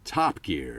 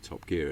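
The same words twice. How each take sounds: First: The stress falls on the first word. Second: The stress falls on the second word.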